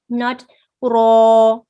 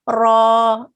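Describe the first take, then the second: First: It is made heavy by rounding the lips. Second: It is heavy without rounding the lips. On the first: The speaker calls it wrong. "don't circle your lips" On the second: The speaker calls it right. "Heaviness comes from the tongue"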